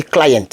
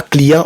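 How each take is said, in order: First: Client said the English way, as KLY-ent with a clear t; English pronunciation. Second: Client said the French way, as klee-ahn with a nasal end; wrong French-style client; French pronunciation. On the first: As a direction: client with the English "eye" sound and a final t. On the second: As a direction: client pronounced like the French word, no English diphthong. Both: Shown as a demonstration. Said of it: "on dit pas client, on dit client".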